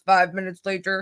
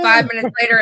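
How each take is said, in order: First: It is said in a dramatic cartoon narrator voice. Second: It is said in an ordinary speaking voice.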